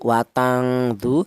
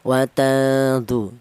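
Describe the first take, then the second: First: The n has a strong nasal hum. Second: The n is moderately nasal and partly hidden. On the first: The speaker calls it wrong. "jangan terlalu dengung" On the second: The speaker calls it right. "Kalau yang ini pertengahan"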